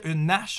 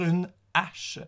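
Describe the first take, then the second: First: The two words are joined with a linking sound. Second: The two words are kept apart without linking. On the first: The speaker calls it wrong. "je peux pas dire une hache" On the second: The speaker calls it right. "je dois dire une hache"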